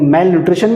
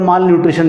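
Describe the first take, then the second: First: The first syllable is said like 'mel'. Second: The first syllable is said like 'mal'. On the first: "मेल nutrition भी लोग बोलते हैं" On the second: "माल nutrition भी बोलते हैं"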